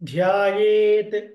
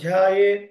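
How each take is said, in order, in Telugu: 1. చివరి t శబ్దం స్పష్టంగా పలుకుతారు. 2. చివరి t శబ్దం మింగేయబడి వినిపించదు. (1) "ఎవ్రీ లెటర్ మనకు స్పష్టంగా వినిపించాలి" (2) "ఆ లాస్ట్ పదం మింగేస్తారు"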